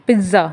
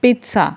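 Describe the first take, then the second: First: Pizza with a Z, PIZ-za; wrong pronunciation. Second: Pizza with a TS, PEET-sa; correct pronunciation. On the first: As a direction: buzz the middle of pizza, no T. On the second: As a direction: say pizza with a crisp t before the s. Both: Shown as a demonstration. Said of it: "not pizza".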